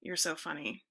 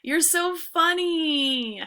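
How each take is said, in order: First: Low, soft, deadpan "You're so funny"; sarcastic, deadpan. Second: High, slow, gushing "You're so funny"; delighted. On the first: Teacher showing a low, sarcastic "You're so funny". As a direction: mutter it, unimpressed. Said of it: "And then there's this tone". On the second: Teacher showing a high, delighted "You're so funny". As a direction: gush over a friend's joke. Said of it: "Okay, there's that tone". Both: Shown as a demonstration.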